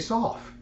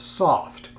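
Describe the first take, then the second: First: The final T sound is dropped. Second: The final T sound is pronounced. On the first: "some people will say soft" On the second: "with the T pronounced"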